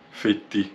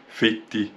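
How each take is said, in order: Both takes have the same delivery.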